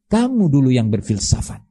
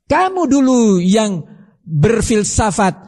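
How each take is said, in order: First: Said in the usual way. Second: "Kamu dulu yang berfilsafat" raised high and slowed, each word pressed; slow, lifted rebuke on "Kamu"; emphatic accusation. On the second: Shown as a demonstration.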